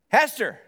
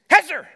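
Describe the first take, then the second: First: The name is called softly and gently. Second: The name is called firmly and more seriously.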